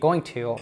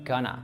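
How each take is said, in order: First: Both words are said fully and separately. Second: The words are squeezed into one short word. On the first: "instead of saying going to" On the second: "we reduce it to gonna"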